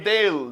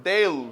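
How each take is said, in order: Both takes have the same delivery.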